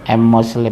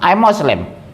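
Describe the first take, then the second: First: It is said hesitantly and meekly. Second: It is said firmly and assertively. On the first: The speaker is not proud of the faith. The speaker calls it wrong. "Jangan bilang" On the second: The speaker is proud of the faith. The speaker calls it right. "Harus tegas"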